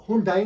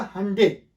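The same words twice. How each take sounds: First: हुंडई as "hoon-DAA-ee"; the wrong "hoon-dai" for हुंडई; rejected pronunciation. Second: हंडे as "HUN-day", rhyming with Sunday; correct pronunciation. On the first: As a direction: say हुंडई with an oo first and an "ai" ending. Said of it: "हुंडई नहीं है". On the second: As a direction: say हंडे with a short uh and an "ay" ending. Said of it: "ये word actual है हंडे". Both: Shown as a demonstration.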